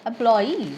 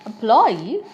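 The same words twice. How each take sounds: First: "employee" stressed at the end, em-ploy-EE; stress on last syllable. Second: "employee" stressed in the middle, em-PLOY-ee; stress on middle syllable. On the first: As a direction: say "employee" slowly, landing hard on EE. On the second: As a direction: hit PLOY in "employee", slow and loud. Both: Shown as a demonstration. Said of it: "multiple pronunciations".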